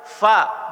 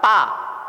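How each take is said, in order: First: It begins with an f sound. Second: It begins with a p sound. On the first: The speaker calls it right. "penyebutan fa-nya fa" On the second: The speaker calls it wrong. "bukan pa"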